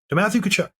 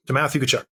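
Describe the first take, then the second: First: "Matthew" lifted high in pitch, at normal loudness; Matthew stressed. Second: Said in the usual way. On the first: Shown as a demonstration. Repeating the opponent's name to a co-host, "Matthew" raised.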